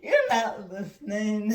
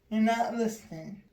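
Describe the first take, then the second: First: It is said playfully, with laughter. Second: It is said flatly, with no emotion.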